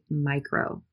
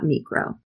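First: The first vowel sounds like 'eye'. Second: The first vowel sounds like 'ee'. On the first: The speaker calls it right. "we would say micro" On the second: The speaker calls it wrong. "not micro"

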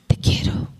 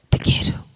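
Both takes have the same delivery.

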